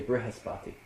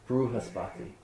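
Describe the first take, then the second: First: It is said the North Indian way. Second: It is said the South Indian way, with 'ru'.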